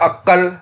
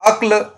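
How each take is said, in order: First: A vowel is inserted and the k is doubled. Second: The final consonants are said together without a vowel.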